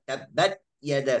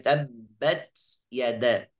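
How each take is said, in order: First: The t is cut off with no audible release. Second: The t is released with a hissing s-like sound. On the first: "suara huruf itu hilang" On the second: "jangan sampai baca dengan suara sin"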